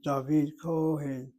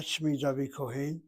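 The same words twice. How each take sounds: First: Kohen with a long, slow, stressed KO. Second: Kohen with the weight on the final HEN; wrong stress. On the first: Teacher correcting the reading, Kohen stressed on KO. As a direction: stretch and hit the first syllable of Kohen. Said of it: "The Midah Cholam ... should always be accented". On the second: Teacher showing the form to avoid, Kohen stressed on HEN. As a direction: say Kohen end-stressed, KO kept short. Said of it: "Not Shmi David Kohen". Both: Shown as a demonstration.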